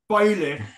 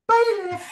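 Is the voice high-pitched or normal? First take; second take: normal; high-pitched. First: It is said in a normal voice. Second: It is said in a very high-pitched voice.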